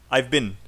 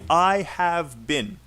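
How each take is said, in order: First: 'I have' is squeezed into one syllable. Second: Both words 'I have' are said in full. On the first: The speaker calls it right. "Say I've" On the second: The speaker calls it wrong. "So don't say I have been"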